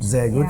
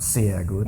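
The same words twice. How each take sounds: First: The s at the start is buzzed, like z. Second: The s at the start is sharp, unbuzzed. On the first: The speaker calls it right. "so it must be like this, the buzzing" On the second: The speaker calls it wrong.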